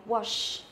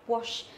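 Both takes have the same delivery.

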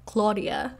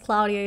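First: The name is said without the accented A. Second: The name is said with the accented A. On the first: The speaker calls it wrong. "without the accent, it sounds a little bit different" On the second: The speaker calls it right. "my name has an accent on the A"

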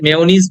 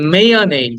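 First: The last syllable has no 'ay' vowel. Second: The last syllable has an 'ay' vowel. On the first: The speaker calls it wrong. "সেটাকে আমরা মেয়োনিজ বলে" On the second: The speaker calls it right. "দেখো EI যেটা, ওইটা হচ্ছে এই"

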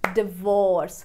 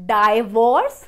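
First: The first syllable sounds like 'dih'. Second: The first syllable sounds like 'die'. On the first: The speaker calls it right. "तो आप कैसे बोलेंगे? डिवोर्स" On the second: The speaker calls it wrong. "ना कि डाइवोर्स"

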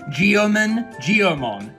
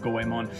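First: The name begins with a 'gee-oh' sound. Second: The name begins with a 'go-eh' sound. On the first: The speaker calls it wrong. "I didn't know how to pronounce Japanese, so I called it Geomon" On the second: The speaker calls it right. "it's pronounced Goemon"

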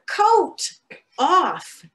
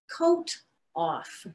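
First: It is said at a louder volume. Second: It is said at a softer volume.

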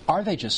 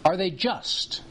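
First: The word just carries no special emphasis. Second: The word just carries strong emphasis.

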